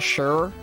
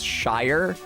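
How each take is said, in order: First: The ending sounds like the word sure. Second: The ending sounds like the word shire. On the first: The speaker calls it right. "Seems obvious to me that it would be pronounced Sure" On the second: The speaker calls it wrong. "Americans from outside New England have a tendency to pronounce"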